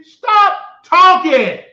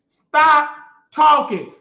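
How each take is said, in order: First: Slow, loud, high command; stop talking. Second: Slow, loud, drawn-out order; stop talking. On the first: Telling Rico off on stream, slow loud command. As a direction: stretch each word out, loud and cutting. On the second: Repeating the order to Rico, slow and loud. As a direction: lean on every word, loud and slow. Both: Real, not acted.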